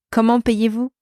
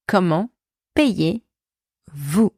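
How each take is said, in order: First: Said in the usual way. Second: Word by word, long gaps; slow breakdown. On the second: Shown as a demonstration. French teacher showing inversion, slowly segmented. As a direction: separate every piece for learners.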